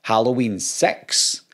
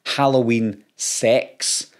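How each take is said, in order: First: "Halloween six" with a short, centred i in six; intended six. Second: "Halloween sex" with an open eh in sex; misheard sex. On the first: Scot showing viewers the title really meant, slow and careful. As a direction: slowly set out "six" with its short Scottish vowel. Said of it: "It's the same with Halloween six". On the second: YouTuber contrasting what people mishear, slow and careful. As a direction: slowly set out "sex" with a clear eh vowel. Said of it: "It's completely different". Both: Shown as a demonstration.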